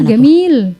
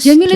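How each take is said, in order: First: The word begins with a hard G sound. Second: The word begins with a J sound.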